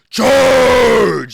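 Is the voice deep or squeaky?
deep. It is said in a deep, manly voice.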